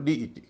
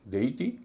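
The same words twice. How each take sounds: First: "डीईटी" opening with dee; second pronunciation. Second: "देईटी" opening with day; first pronunciation. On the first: Teacher giving second of two pronunciations, ee vowel. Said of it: "दूसरे में उच्चारण ई हो रहा है". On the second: Teacher giving first of two pronunciations, ay vowel. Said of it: "एक में ई का उच्चारण ए हो रहा है". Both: Shown as a demonstration.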